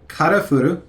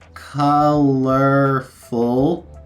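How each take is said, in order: First: It has a strong Japanese katakana accent. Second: It has a light Japanese katakana accent.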